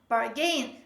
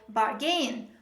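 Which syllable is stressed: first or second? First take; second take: second; second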